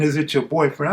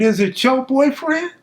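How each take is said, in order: First: Said in the usual way. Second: High, incredulous parroting of the question; mocking echo. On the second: Suspect mocking the deputy's question, high and incredulous. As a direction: throw the deputy's words back at him, mocking.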